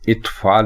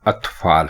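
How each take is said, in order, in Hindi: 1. शब्द 'i' स्वर से शुरू होता है। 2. शब्द 'a' स्वर से शुरू होता है। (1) "अलिफ के नीचे जेर लगाकर यानी इत्फाल कहना ये गलत है" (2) "अलिफ के साथ जबर लगाकर लिखना और बोलना दुरुस्त है"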